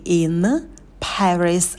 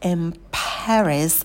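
First: The word 'in' ends with a clear n sound. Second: The word 'in' ends with an m sound. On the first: The speaker calls it wrong. "Не in Paris" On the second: The speaker calls it right. "а in Paris. Появляется звук «м»"

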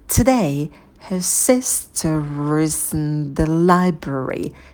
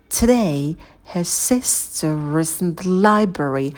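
First: The sentence is spoken slowly. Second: The sentence is spoken at normal speed.

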